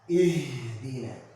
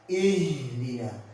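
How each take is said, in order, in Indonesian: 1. Bunyi h dihembuskan dengan tenaga yang berlebihan. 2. Bunyi h dihembuskan dengan tenaga yang berlebihan.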